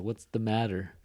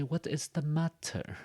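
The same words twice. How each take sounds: First: Californian "matter", like "madder"; California D sound. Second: High, slow British English with a crisp T in "matter"; British accent. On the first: Teacher showing California English to learners, T as D. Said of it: "in California English, that T becomes a D sound". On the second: Teacher showing how British English says it, British accent. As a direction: pronounce "matter" the British way, with a real T. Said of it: "So in British English". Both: Shown as a demonstration.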